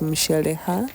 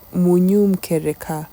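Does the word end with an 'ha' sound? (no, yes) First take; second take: yes; no. First: The word ends with an 'ha' sound. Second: The word ends without an 'ha' sound. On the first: This is how other sub-tribes say it. "Luyas from the other sub tribes, they they pronounce it as that" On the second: This is how the speaker's own sub-tribe says it. "We say Munyum Kereka, ... We don't have the ha"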